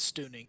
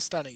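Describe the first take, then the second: First: The first vowel sounds like 'oo'. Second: The first vowel sounds like 'uh'. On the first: The speaker calls it right. "It's stooning" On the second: The speaker calls it wrong. "It's not stunning"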